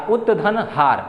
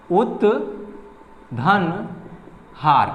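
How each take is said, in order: First: Said in the usual way. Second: उत्धन stretched out very slowly, sound by sound; slow syllable by syllable. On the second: Shown as a demonstration. Teacher dictating उत्धन to students, drawn out very slowly. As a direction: spell out उत्धन हार slowly for the class. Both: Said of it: "इसका example है".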